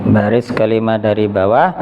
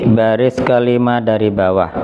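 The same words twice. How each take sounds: Both takes have the same delivery.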